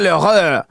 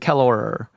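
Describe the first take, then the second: First: It is said with a French accent. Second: It is said with an American accent.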